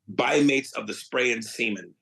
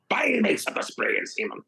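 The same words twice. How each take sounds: First: It is said in his normal voice. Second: It is said in a put-on pirate voice.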